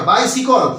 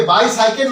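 First: বাইসিকল said as bai-si-kol, the right way; correct pronunciation. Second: বাইসাইকেল said as bai-sai-kel, the wrong way; wrong pronunciation. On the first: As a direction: say বাইসিকল with a short si and kol at the end. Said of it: "বাইসাইকেল নয়, বাইসিকল". (সঠিক উচ্চারণ বাইসিকল, বাই-সি-কল) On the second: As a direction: say বাইসাইকেল with the long sai in the middle. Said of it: "বাইসাইকেল নয়". (ভুল উচ্চারণ বাইসাইকেল, বাই-সাই-কেল) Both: Shown as a demonstration.

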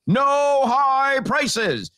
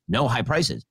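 First: High, slow drawn-out shout; mock shout. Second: Said in the usual way. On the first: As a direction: bellow it like a decree. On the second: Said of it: "a law that says".

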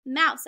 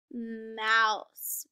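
First: Said in the usual way. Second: "mouse" stretched out with a long opening M; reading together slowly. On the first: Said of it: "that's the word". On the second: Shown as a demonstration. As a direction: sound out "mouse" slowly for beginning readers. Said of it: "So let's read that together".

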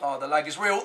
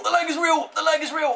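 First: Said in the usual way. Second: "lag" punched, higher and louder, fed up; exasperated higher repeat. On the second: Real, not acted. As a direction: hammer "lag" again in frustration.

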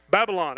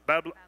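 First: Put-on Babylon in three clear syllables, BAB-uh-lon; Babylon said right. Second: Put-on Babylon clipped to "Babbl", the last syllable swallowed; stumbling over Babylon. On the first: Pastor finally getting Babylon right, BAB-uh-lon. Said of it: "There you go". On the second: Pastor tripping on Babylon, clipped to "Babbl". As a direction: trip on Babylon and cut it short as "Babbl". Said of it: "I say it wrong". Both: Shown as a demonstration.

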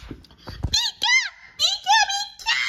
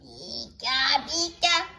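First: Very high creature squeak; piercing high little-creature cry; ear-splitting squeal. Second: Much lower, restrained squeak call; subdued creature call at normal volume; toned-down creature cry. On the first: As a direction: squeal it at the top of your range. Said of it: "Ow, my ear!". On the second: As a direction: repeat the cry without the piercing height. Repeats the cry after complaint. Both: Pretend.

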